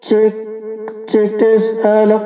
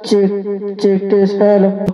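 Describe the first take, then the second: First: The voice has an added echo effect. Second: The voice sounds dry, without added echo. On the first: "এরপর আমরা এর মধ্যে ইকো দেবো" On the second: "এটা normal কথা বলছি আমি এখন"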